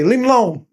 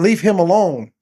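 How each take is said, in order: First: The words run together, sounding like 'leave Malone'. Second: Each word is said separately and clearly. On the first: This is the speaker's own dialect way of saying it. "I say leave him alone ... like you saying some kind of basketball play, player" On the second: This is the standard way to say it. "instead of saying leave him alone"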